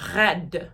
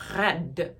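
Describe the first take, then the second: First: The R is a French R, tongue kept low. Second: The same.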